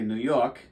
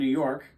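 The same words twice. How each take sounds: First: It is said in a New York accent. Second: It is said in a neutral accent.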